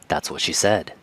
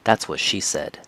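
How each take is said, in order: First: The main stress falls on a word other than 'she'. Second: The word 'she' carries the main stress. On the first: The speaker calls it wrong. "don't say it like" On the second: The speaker calls it right. "you must stress the word she. Okay, so it should sound like this"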